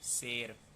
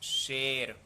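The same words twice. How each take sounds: First: The word begins with an s sound. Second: The word begins with an sh sound. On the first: The speaker calls it wrong. "उच्चारण शेर" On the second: The speaker calls it right. "वर्तनी शुद्ध"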